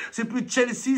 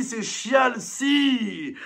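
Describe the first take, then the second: First: Said in the usual way. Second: "Chelsea" drawn out slowly as "chialsi"; stretched mocking pronunciation. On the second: Shown as a demonstration. ("Chelsea" étiré lentement en "chialsi")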